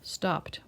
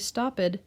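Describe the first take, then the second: First: The word is said with one syllable. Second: The word is said with two syllables. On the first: The speaker calls it right. "one syllable" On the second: The speaker calls it wrong. "We don't say stopped"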